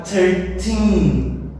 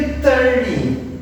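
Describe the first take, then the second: First: "thirteen" with a loud, lengthened second syllable; thir-TEEN, end-stressed. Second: "thirty" with a loud, long first syllable; THIR-ty, front-stressed. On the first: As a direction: lean hard on the final "teen" of "thirteen". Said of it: "Teen, no final". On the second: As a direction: hit the start of "thirty", let the end fall. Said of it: "aqui ela está no comecinho". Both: Shown as a demonstration.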